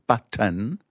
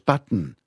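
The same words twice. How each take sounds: First: The air is released through the mouth. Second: The air is released through the nose. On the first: "you let the air out your mouth" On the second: "Or you can let the air out your nose"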